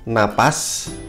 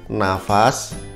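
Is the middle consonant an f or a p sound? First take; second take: p; f. First: The middle consonant is a p sound. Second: The middle consonant is an f sound. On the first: This is the standard form. The speaker calls it right. "Ini yang baku" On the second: This is the everyday spoken form. The speaker calls it wrong. "setiap harinya kita kalau bilang nafas ya"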